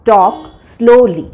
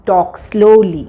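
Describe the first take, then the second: First: "Talk slowly" drawn out very slowly; slow teaching repeat. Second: Said in the usual way. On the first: Shown as a demonstration. Teacher repeating "Talk slowly" very slowly for students. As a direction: stretch every syllable of "Talk slowly" for learners.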